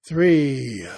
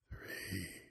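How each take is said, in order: First: It is said louder. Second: It is said softer.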